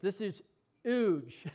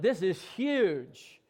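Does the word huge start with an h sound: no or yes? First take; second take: no; yes. First: Huge is said without the h sound. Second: Huge is said with the h sound. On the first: "I used to say it without an H" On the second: "So I'm going to put an H on it"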